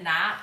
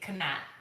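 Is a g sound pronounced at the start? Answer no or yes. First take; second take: no; yes. First: The word starts with a plain n sound. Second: The word starts with a sounded g. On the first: "I never said gnat" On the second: "I used to always say how the words were spelled"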